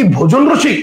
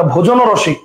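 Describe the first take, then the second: First: ভোজন রসিক said as bhojon roshik, with no vowel between the words; pronunciation without o. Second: ভোজন রসিক said as bhojono roshik, with an o sound after ভোজন; pronunciation with hidden o. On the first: Teacher giving students the wrong choice first. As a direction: run ভোজন straight into রসিক. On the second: Teacher showing students the correct compound pronunciation. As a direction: slip an o between ভোজন and রসিক. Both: Shown as a demonstration. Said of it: "লাস্টে একটা অ উচ্চারিত হচ্ছে".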